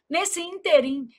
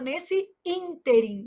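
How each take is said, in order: First: The stress falls on the last syllable. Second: The stress falls before the last syllable. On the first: The speaker calls it wrong. "quando pronunciada como oxítona. O povo vai lá e fala assim" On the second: The speaker calls it right. "a gente fala nesse ínterim"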